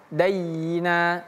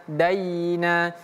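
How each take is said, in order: Both takes have the same delivery.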